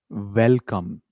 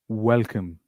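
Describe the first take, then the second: First: It begins with a biting V sound. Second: It begins with rounded lips, a W sound. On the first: The speaker calls it wrong. "we do not say welcome. It's wrong English" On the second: The speaker calls it right. "Make your face like this, pout position"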